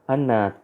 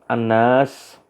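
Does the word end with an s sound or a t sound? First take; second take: t; s. First: The word ends with a t sound. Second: The word ends with an s sound. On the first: This is the Yemeni dialect form. "bacanya Anat" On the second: This is the standard form. "Anas manusia"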